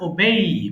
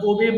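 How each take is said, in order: First: The word ends in an 'ay' glide. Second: The word ends in a plain 'e' vowel. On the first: The speaker calls it right. "এটা সঠিক উচ্চারণ হয় ওবেই" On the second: The speaker calls it wrong. "আমরা ওবে বলি"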